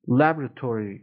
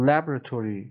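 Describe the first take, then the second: First: It is said with an American accent. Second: It is said with an American accent.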